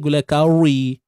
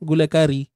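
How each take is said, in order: First: The r syllable is said heavy and thick. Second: The r syllable is said light and thin. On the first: The speaker calls it wrong. "mana ada kita sebut makan apa hari ni?" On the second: The speaker calls it right. "macam kita sebut nama gulai tu"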